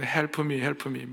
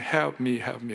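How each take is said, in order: First: It is said with a Korean accent. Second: It is said with an American accent.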